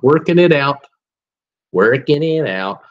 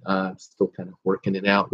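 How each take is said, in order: First: A light, hammed-up George Bush, a bit louder; lightly voiced George Bush Senior, mock presidential; George Bush impression. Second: Said in the usual way. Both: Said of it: "I love doing my George Bush impersonation".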